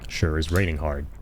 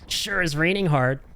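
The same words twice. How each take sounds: First: It is said in a plain voice. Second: It is said in a jaunty, Zack-like voice.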